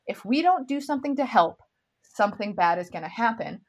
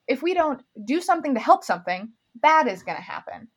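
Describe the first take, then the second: First: The pause comes right after "help". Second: The pause comes after the second "something". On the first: Something bad will happen unless they help. The speaker calls it right. "it is supposed to be read" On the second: The line sounds like it says nothing. The speaker calls it wrong. "She reads it just like that"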